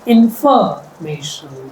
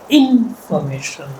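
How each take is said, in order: First: The stress is on the second syllable. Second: The stress is on the first syllable. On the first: "If I stress the second syllable" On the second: "if I stress the first syllable"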